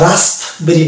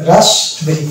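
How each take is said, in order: First: রাসবেরি slowly with an audible P after S; wrong, P sounded. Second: রাসবেরি with no P after the S; silent P. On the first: Teacher shows what not to say, P sounded. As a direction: say রাসবেরি as rasp-berry, slow. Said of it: "মানে পকে টানতে হবে না". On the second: Teacher models raspberry for students, silent P. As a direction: say রাসবেরি going straight from S to B. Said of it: "পি কে বাদ দিয়ে আমি উচ্চারণ যদি করি". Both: Shown as a demonstration.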